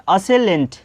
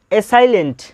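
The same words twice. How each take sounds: First: असेलेंट, opening on 'uh', then 'se-lent'; middle syllable as 'se'. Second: असाइलेंट, middle rhyming with 'sigh'; middle syllable as 'sai'. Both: Shown as a demonstration. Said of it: "इसको क्या पढ़ते हैं?".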